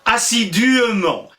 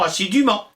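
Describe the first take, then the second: First: An extra E vowel is sounded before -ment. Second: No vowel is sounded between assidu and -ment. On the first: This is the old medieval pronunciation. "on disait" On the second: This is the modern pronunciation. "on a cessé de prononcer le E. Et puis, encore maintenant, on dit"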